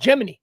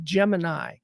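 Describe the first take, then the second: First: Gemini is said with a Southern pronunciation. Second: Gemini is said with a Midwestern pronunciation. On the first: "if you're from the South, you're allowed to call it Gemini" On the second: "For me, I'm Midwestern"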